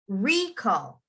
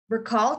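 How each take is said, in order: First: The stress is on the first syllable. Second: The stress is on the second syllable.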